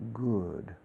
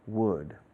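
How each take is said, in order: First: It starts with a g sound in the throat. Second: It starts with a w sound, no throat contact. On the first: The speaker calls it wrong. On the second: The speaker calls it right.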